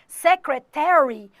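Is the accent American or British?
American. It is said in an American accent.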